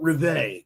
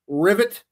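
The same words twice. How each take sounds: First: The name is said in a fancy way. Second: The name is said in a plain way.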